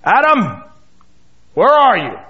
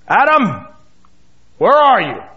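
First: The voice is stern, sharp and commanding. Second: The same.

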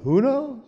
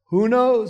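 First: It is said with a put-on Jewish inflection. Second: It is said with a plain, neutral delivery.

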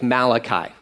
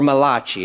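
First: The name is said in a plain English style. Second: The name is said in an Italian style.

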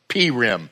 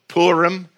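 First: It is pronounced the Central European way. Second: It is pronounced the Western way. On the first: "Some Central European communities even call it Purim" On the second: "Among the Westerners, it's often called Purim"

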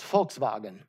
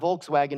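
First: The word begins with a V sound. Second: The word begins with a W sound. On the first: The speaker calls it right. "the W is a V" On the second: The speaker calls it wrong. "it's not Volkswagen"

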